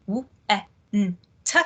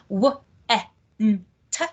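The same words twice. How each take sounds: First: W, e, n, t sounded out one by one, lips exaggerated; over enunciating. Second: W, e, n, t each sound split and mouthed wide; over enunciating. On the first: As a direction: sound talk w, e, n, t with big lip shapes. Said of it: "notice I'm really kind of trying to exaggerate the, um, articulation with my lips". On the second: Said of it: "trying to exaggerate the, um, articulation with my lips". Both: Shown as a demonstration.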